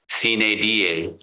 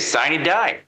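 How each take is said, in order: First: It is pronounced the classical Latin way. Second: It is pronounced the English legal way. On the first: "the classical Latin would be something along the lines of" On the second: "but we say"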